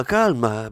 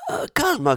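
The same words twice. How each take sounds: First: Said in the usual way. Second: Venetian plumber's high startled calma, calma pitched way up; startled calming. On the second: Acted. Plumber startled into calming the commissioner, pitched high. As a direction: jump up in pitch to placate.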